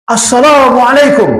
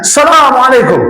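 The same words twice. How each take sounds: First: Drawn-out, high-pitched call; acted shout. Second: High, more forceful call; louder acted shout. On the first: Ex-guard hailing a big temple statue, shouted greeting. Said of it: "dia teriak, Pak". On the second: Ex-guard nearing the statue, shouting the greeting harder. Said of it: "makin kencang teriaknya".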